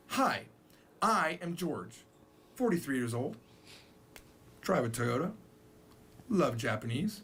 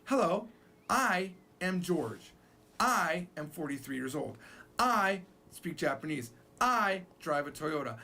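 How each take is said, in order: First: Japanese style introduction. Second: Slow, stressing each "I"; repetitive English self-introduction. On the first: Teacher shows Japanese style dropping "I". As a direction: list the facts without the subject. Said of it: "they talk like this". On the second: Teacher shows how English speakers repeat "I". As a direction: plod through each "I" sentence. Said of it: "We say". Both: Shown as a demonstration.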